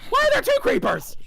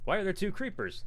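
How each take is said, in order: First: Very high, loud startled shriek; real high-pitched yelp of disbelief. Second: Retold alarm, raised in pitch but not shouted; mock exasperated question, higher voice; retold disbelief. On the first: Real, not acted. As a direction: shriek it in alarm at a sudden threat. Startled by two creepers in game. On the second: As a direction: replay the panic at half strength. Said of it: "they're like".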